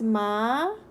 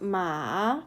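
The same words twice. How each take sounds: First: It has the second tone, a rising pitch. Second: It has the third tone, dipping then rising. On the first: "the second tone is ma" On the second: "the third is ma"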